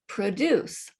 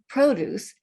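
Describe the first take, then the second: First: The stress is on the second syllable. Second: The stress is on the first syllable. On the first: It is a verb meaning to make. "is a completely different word from" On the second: It is a noun meaning farm goods. "the accent on the first syllable"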